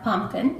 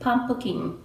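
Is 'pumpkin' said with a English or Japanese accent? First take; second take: English; Japanese. First: It is said with an English accent. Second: It is said with a Japanese accent. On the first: "Rather than pumpkin" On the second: "it's just a little pronunciation is more like pumpkin"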